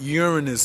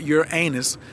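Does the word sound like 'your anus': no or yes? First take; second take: no; yes. First: It is said not to sound like 'your anus'. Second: It is said to sound like 'your anus'. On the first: The speaker calls it right. "Uranus is the correct pronunciation" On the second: The speaker calls it wrong. "not Uranus, not my anus or your anus"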